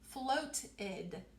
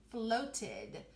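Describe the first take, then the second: First: It is stretched out with a clear T. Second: The same.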